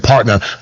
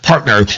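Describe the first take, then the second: First: The word is said plainly, without extra force. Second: The word is said with heavy, forceful emphasis. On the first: "They don't even say partner" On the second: "When they put that emphasis on"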